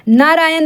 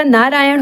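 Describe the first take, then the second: First: नारायण ending in plain dental n; wrong नारायण. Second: नारायण ending in retroflex ण; correct नारायण. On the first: Teacher shows the misspelling, नारायण with plain n. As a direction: say नारायण as "naraayan" with न. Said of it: "नहीं होता". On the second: Teacher gives the correct word, नारायण with retroflex n. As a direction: curl the tongue for the last sound of नारायण. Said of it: "होता है". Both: Shown as a demonstration.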